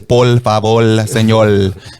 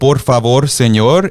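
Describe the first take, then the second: First: The r sounds are swapped toward l sounds. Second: The r sounds are kept as r.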